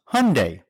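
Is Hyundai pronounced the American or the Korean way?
American. The name has an American English pronunciation. "In the U.S., it's pronounced Hyundai"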